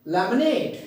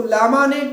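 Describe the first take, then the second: First: laminate with the final नेट stressed; quick start, then lean on नेट in laminate; stress on last syllable. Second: लामानेट with long, loud LAA-MAA at the front; wrong long vowels. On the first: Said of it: "उसी के ऊपर stress देंगे". (Laminate में नेट पर ज़ोर) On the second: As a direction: lean on the first syllables of लामानेट. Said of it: "इसको लामानेट नहीं कहेंगे". (लामानेट के शुरू पर ज़ोर, लंबे स्वर) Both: Shown as a demonstration.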